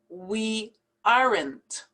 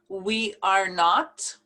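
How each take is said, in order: First: It is contracted, ending clearly on n and t. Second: It is said as three full separate words.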